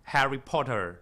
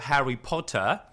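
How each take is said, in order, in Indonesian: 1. Bunyi R diucapkan dengan jelas. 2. Bunyi R lembut atau dihilangkan.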